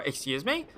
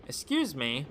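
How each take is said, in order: First: "Excuse me?" with a rising tune on me; rising incredulous. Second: Said in the usual way. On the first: Shown as a demonstration. Boy passenger thrown by the odd question. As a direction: lift "me" in disbelief.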